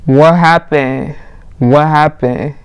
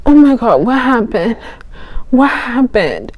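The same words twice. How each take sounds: First: Drawn-out, lightly voiced guy's question; guy checking on her. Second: High, faint mock waking voice; pretending to wake up. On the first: Guy to passed-out girl, slow imitated concern. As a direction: slowly imitate a puzzled guy. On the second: Girl faking waking up to the guy, high mock confusion. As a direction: feign coming round, higher and confused. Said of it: "So then I woke up".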